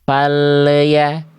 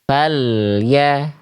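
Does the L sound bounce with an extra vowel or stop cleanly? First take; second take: bouncing; clean. First: The L bounces with an added vowel sound. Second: The L stops cleanly with no added vowel. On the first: The speaker calls it wrong. "lam sukunnya memantul" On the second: The speaker calls it right. "seharusnya falya tanpa adanya bunyi le"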